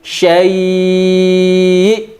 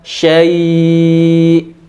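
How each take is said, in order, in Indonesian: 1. Kata syai' memiliki sentakan tajam yang ditekankan. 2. Kata syai' diucapkan biasa tanpa sentakan. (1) "tapi syai'. Nah, dinaberkan" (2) "bukan syai'"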